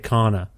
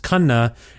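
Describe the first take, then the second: First: The name has a simplified, anglicized pronunciation. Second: The name has its original Indian pronunciation. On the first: This form is easier for locals to say. "I've sort of assimilated it to Kana" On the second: This is the family's true name. "the proper pronunciation is Kanna"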